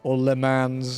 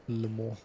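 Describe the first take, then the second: First: The final S is pronounced. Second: The final S is silent. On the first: The speaker calls it wrong. "as some people call it" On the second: The speaker calls it right. "It's literally just lemon, but without an S"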